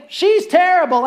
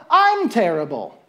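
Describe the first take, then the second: First: Judging scorn. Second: Sad admission. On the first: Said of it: "see her and think". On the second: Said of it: "and then go". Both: Acted.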